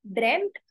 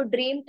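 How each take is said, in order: First: ड्रीम्ड with a short "e", as "dremt"; correct short vowel. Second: ड्रीम्ड with a long "ee", as in dream; mispronounced vowel. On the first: Teacher models the past of dream for learners, ड्रीम्ड pronounced "dremt". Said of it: "इसको बोलेंगे हम ड्रीम्ड". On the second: Teacher shows learners what not to say, ड्रीम्ड mispronounced as "dreemt". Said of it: "इसको ड्रीम्ड नहीं बोलेंगे". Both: Shown as a demonstration.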